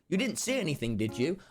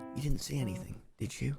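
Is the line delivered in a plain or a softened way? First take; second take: plain; softened. First: The line is said in a plain, ordinary way. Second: The line is said in a soft, gentle way. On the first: "instead of saying" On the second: "I'd sort of soften my words and go"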